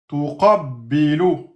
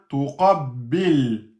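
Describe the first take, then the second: First: The word ends with a short vowel. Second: The word ends on a bare consonant. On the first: The reading continues without stopping. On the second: The reader stops on this word.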